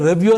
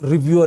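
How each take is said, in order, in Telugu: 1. మొదటి అచ్చు 'eh' లా ధ్వనిస్తుంది. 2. మొదటి అచ్చు 'ee' లా ధ్వనిస్తుంది. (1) "రెవ్యూ అని పలికినందువల్ల" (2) "కరెక్ట్గా పలకాలంటే మీరు చెప్పిందే కరెక్ట్, రివ్యూ అనే పలకాలి"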